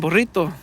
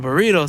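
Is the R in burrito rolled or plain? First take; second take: rolled; plain. First: The R is rolled. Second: The R is plain, not rolled. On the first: The speaker calls it right. "You gotta roll that R, man" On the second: The speaker calls it wrong. "burrito sounds like, oh man, you can't roll your R's"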